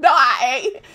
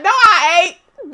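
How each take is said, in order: First: Said in the usual way. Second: Slow, loud teasing denial; drawn-out joking protest; playful denial. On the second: Real, not acted. Denying with a laugh.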